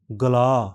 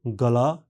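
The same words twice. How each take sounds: First: गला with the last आ held long, louder; extra long vowel. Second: Said in the usual way. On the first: Shown as a demonstration. Teacher contrasts the long गला with the plain one. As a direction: stretch the final आ of गला. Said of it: "extra long vowel". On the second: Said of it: "साधारण".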